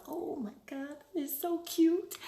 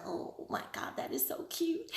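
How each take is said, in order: First: Imagined buyer's gush. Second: Breathy hushed gush over something cute; whispered delight. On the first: Buyer feeling the charm before purchase, mild gush. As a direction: gush lightly over something cute. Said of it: "they have a feeling of". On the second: Vlogger imitating buyers seeing a cute lip balm, whispered delight. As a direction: whisper it like you just saw something adorable. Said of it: "they're gonna look at it and go". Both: Retold or imitated.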